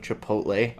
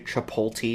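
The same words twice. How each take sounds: First: The T sound comes before the L sound. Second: The L sound comes before the T sound. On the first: The speaker calls it right. "It is chipotle, everybody" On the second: The speaker calls it wrong. "They mix the L and the T"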